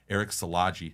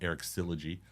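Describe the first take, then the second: First: The surname does not sound like 'syllogism'. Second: The surname sounds like the start of 'syllogism'. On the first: The speaker calls it right. "which I did not know was pronounced this way" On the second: The speaker calls it wrong. "I've been calling him Eric Syllogy, like like syllogisms"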